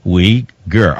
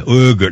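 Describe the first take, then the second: First: "Uyghur" said as wee-gur, two clear syllables; "Uyghur" as wee-gur, lower, coaching; correct pronunciation. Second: "Uyghur" said as oo-gur, the mistake; the pupil's wrong "Uyghur", oo-gur; "Uyghur" mispronounced oo-gur; wrong pronunciation. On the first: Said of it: "not Uyghur". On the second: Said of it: "No, no, no, not Uyghur". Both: Shown as a demonstration.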